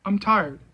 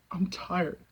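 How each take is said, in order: First: Said in the usual way. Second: Much softer, drained of all force; exhausted. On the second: Real, not acted. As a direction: let it fall away, almost gone.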